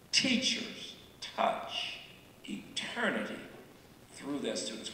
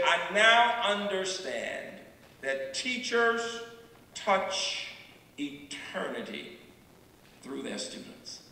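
First: Near-whispered and softer, words set apart; hushed repeat. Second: Slow solemn quote. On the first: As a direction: breathe the line out like a secret. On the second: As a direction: spell out each word with weight, letting it die away. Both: Shown as a demonstration.

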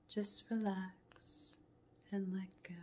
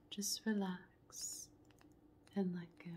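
The two takes are said the same way.

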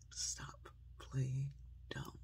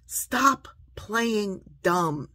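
First: Soft, slow, word by word; hushed, deliberate appeal; gentle admonition. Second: Loud, raised, very slow admonition; emphatic word-by-word scolding; forceful rebuke. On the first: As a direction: close quietly, spacing each word. Soft closing appeal, same phrase. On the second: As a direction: punch out each word separately. Rebukes the mocked excuse-makers. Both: Real, not acted.

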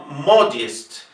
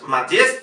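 First: Modest slowly, stressed on a clear "MO"; MO-dyest, with full O and falling end; first-syllable stress. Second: Matiest with A and stress on the last syllable; wrong stress. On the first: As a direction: model Modest with the stress up front. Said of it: "señalar claramente dónde está la sílaba tónica". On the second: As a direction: mistaken Matiest, rising on "-tiest". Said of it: "Modest no es Matiest". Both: Shown as a demonstration.

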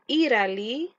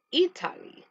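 First: Italy with the T tapped like a light r; American pronunciation. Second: Italy with a clearly released T; crisp T in Italy, never tapped; British pronunciation. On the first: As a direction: demonstrate American "Italy", as "Iraly". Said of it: "es inglés americano". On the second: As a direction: demonstrate British "Italy", T kept hard. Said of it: "es inglés británico". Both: Shown as a demonstration.

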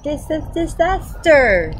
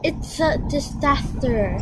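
First: "disaster" tried again slowly, first syllable stumbling; slowed retry of the lisped word; careful retry. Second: "disaster" slurred as tisaster, no teeth; slowed toothless old man's lisp. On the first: Shown as a demonstration. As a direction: sound out "Dis-, disaster" slowly like copying a lisp. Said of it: "how did you say that?". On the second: Acted. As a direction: say "It's a disaster!" gummy, "d" softened to "t". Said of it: "Why is he talking funny?".

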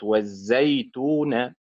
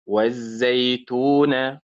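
First: Slow والزيتون, stressed on زي; wrong early stress. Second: Slow والزيتون, stressed on تو; stress on later syllable. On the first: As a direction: punch زي in والزيتون, drawn out. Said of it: "وليست والزيتون". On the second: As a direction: lean on تو in والزيتون, drawn out. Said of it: "زيتو فعل وليست زيتو فعل". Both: Shown as a demonstration.

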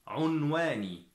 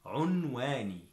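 Both takes have the same delivery.

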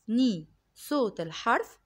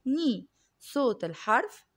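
The two takes are said the same way.

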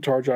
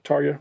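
First: Tarja said TAR-ja, J as in jar; mistaken hard J. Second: Tarja said TAR-yah; corrected J as Y. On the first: Host owning up to the slip, Tarja said TAR-jah with English J. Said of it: "I know". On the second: Host repeating the fixed name, Tarja pronounced TAR-yah. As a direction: say Tarja with J like the Y in yes. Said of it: "I said Tarja, I know". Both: Shown as a demonstration.

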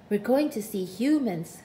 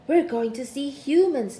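First: Steady, matter-of-fact statement; declaring. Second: Proud and loud; boasting. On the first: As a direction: declare it calmly. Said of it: "declared Snugglepot". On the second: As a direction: boast it to the lizard. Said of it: "boasted Snugglepot". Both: A narrator's reading.

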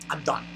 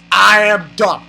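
First: Quiet, low, defeated; resigned. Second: "I am done" firm, each word separate; emphatic finality. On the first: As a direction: say it under your breath, giving up. Gives up, then repeats emphatically. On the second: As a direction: declare "I am done" with full weight. Repeats it emphatically. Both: Real, not acted.

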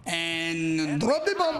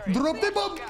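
First: Low, slow, dragged out menace; a slow, low movie-trailer drop; drop the bomb. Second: Higher, punchy repeat; drop the bomb. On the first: Taunting the enemy squad, low and slow. Gamer dramatic repeated taunt. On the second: Taunting the enemy squad, quick high repeat. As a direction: snap it back up high. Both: Pretend.

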